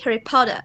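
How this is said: Potter ends with an open eh sound. "British people ... they pronounce like E"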